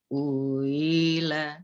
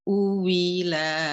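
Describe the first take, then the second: First: The hamzah is softened between a catch and y. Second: The hamzah is replaced by a full w sound. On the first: "Itu tasil"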